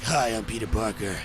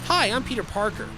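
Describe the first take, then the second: First: The voice is dropped low and sounds gritty. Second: The voice is light and in a normal register. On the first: The character is made darker to sell more tickets. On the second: The character is a sweet, ordinary boy next door.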